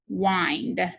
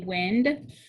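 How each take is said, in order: First: The vowel is long, as in 'wine'. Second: The vowel is short, as in 'win'. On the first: To turn something. The speaker calls it right. "He will turn the clock" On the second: Moving air. The speaker calls it wrong. "If I say it with a short sound"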